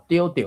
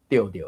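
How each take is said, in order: First: 着着的 read with both 着 at full tone, pitch held up; first tone reading. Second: 着着的 with the second 着 dropped low and light; second tone reading. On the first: Host demonstrating one reading of 着着的, full tones. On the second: Host contrasting the other reading of 着着的, lower. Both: Shown as a demonstration. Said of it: "你敢知我是安怎着着的".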